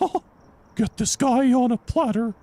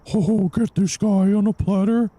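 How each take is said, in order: First: It is said in a Mickey Mouse-like voice. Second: It is said in a Winnie the Pooh voice.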